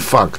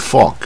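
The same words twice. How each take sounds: First: The vowel is plain, with no r-colouring. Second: The vowel is curled, with a slight r-colouring. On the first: The speaker calls it wrong. "这个它不是念fog" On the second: The speaker calls it right. "可是fog 它是很卷舌的o，它是有点带r 的音"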